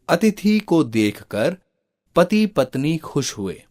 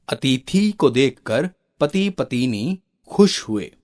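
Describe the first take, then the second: First: पत्नी said 'patni' in two syllables; no vowel between t and n in पत्नी; correct pronunciation. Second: पत्नी said 'patini' with an extra i; mispronounced words. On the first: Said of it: "इन वाक्यों का शुद्ध रूप होगा". (पत्नी का शुद्ध उच्चारण, 'पत-नी') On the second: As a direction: stretch अतिथि and पति, break पत्नी into pa-ti-ni. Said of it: "उच्चारण दोष ही है". (पत्नी को 'पतिनी' जैसा गलत उच्चारण) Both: Shown as a demonstration.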